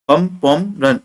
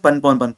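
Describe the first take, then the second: First: The names are said slowly and clearly. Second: The names are rattled off quickly.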